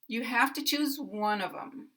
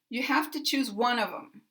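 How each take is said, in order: First: Unstressed words are shortened, linked and reduced. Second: The same.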